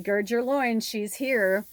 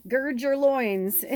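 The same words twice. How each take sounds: First: Lightly voiced warning, a bit louder; a hint of the assistant bracing the office; movie line quote. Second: Slow, drawn-out and laughing. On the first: Quoting Stanley Tucci's character warning the staff, mildly louder. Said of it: "and he's like". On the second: Real, not acted. Reader laughing as she teases the line to her viewers, slow. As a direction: savor the phrase through a laugh.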